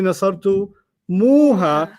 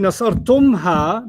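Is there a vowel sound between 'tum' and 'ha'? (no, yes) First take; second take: yes; no. First: An extra 'u' vowel comes before 'ha'. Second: No vowel comes between 'tum' and 'ha'. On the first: The speaker calls it right. "they say nasartu muha" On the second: The speaker calls it wrong. "they don't say nasartumha"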